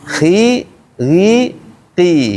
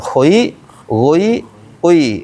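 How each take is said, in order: First: The syllables are said with lips spread back. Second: The syllables are said with lips rounded forward. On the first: The speaker calls it right. "mulutnya ditarik" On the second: The speaker calls it wrong. "Bukan gitu"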